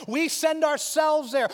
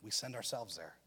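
First: Slow, higher and louder, each word weighed; emphatic. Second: Much lower and softer, the point sinking in; hushed. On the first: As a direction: preach the line out. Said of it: "He doesn't send us". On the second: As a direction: let the line drop low and quiet. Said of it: "God doesn't send anybody". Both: Shown as a demonstration.

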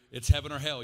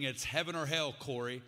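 First: Loud, hammered-home repeat of the ultimatum; retold scream. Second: Said in the usual way. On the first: Friend yelling at Corey in his driveway, loud retold shout. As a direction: bellow it the second time. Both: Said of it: "screaming at me at the top of his lungs".

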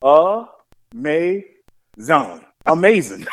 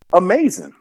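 First: "Amazing." drawn out very slowly, syllable by syllable; enunciating slowly. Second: "Amazing." read for Amazon, falling; reading "Amazing." off the box; misreading Amazon. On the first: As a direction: sound out "Amazing." painfully slow. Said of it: "she was enunciating". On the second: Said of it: "Auntie looked at it and she said". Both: Retold or imitated.

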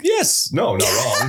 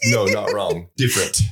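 First: Quick laughing no; rushed laughing denial. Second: "No, not wrong." said slowly and clearly; slower, deliberate correction. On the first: Real, not acted. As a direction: blurt it out through a laugh. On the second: Shown as a demonstration. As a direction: spell out "not wrong" with care. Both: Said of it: "you said that too fast".

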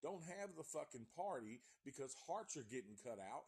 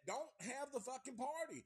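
First: Said in the usual way. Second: Much higher and louder, \"Don't have the fucking party\" yelled as a warning; exasperated shout. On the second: Acted. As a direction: bark the warning at the screen.

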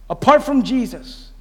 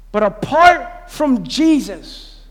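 First: Said in the usual way. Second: "apart from Jesus" stretched very slow and heavy; slow weighty warning. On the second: Acted. Pastor warning the church, drawn out slow. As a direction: linger on every word of "apart from Jesus".

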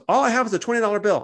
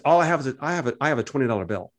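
First: Higher, hammed-up innocent Seth; mock naive Seth. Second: Said in the usual way. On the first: Seth telling the shekel seller he only has a twenty, mock innocent and higher. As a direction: play Seth as guileless, much higher. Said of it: "And Seth goes". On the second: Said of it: "He says".

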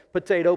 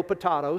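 First: Potato said "puh-TAY-toh"; potato with a long AY in the middle; common pronunciation. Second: Potato said "puh-TAH-toh"; potato with a broad AH in the middle; alternate pronunciation. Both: Shown as a demonstration. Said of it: "pronounced two different ways".

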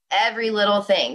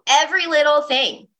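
First: Said in the usual way. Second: Every little thing, pitched high and a bit louder; emphatic high. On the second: Shown as a demonstration. Urging listeners to practise today, emphatic and high. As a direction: lift Every high and lean on it.

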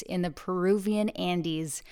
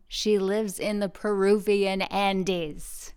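First: Said in the usual way. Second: "Peruvian Andes" said slowly, every syllable distinct; slow, clear repeat. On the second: Shown as a demonstration. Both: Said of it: "let me say that again".

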